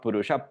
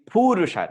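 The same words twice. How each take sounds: First: The first vowel is kept short. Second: The first vowel is held long. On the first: The speaker calls it wrong. "not Purusha" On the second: The speaker calls it right. "it's actually Purusha, Pu has a dirgham"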